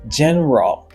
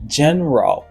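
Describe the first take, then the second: Both takes have the same delivery.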